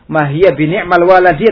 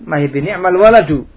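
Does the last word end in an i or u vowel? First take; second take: i; u. First: The last word ends in an i vowel. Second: The last word ends in a u vowel. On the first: The word is read in the genitive case. "nikmah di sini majrur dengan ba" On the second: The word is read as the subject in the nominative case. "menurut madzhabnya orang Basri jadi dhammah"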